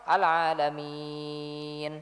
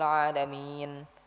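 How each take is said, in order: First: The long vowel is held for six beats. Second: The long vowel is held for three beats. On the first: The speaker calls it right. "enam harokat" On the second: The speaker calls it wrong. "Yang salah itu dibaca dengan tiga harokat"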